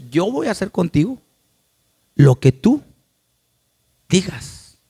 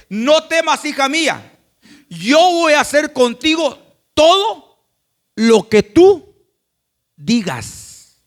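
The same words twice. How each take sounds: First: Said in the usual way. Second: High, loud and slow, a proclaiming voice; Christ's loud promise to his church, drawn out slowly; Christ speaking. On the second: Acted.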